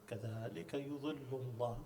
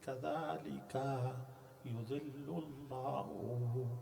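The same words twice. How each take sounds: First: The words are joined smoothly together. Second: The words are broken apart with breaks.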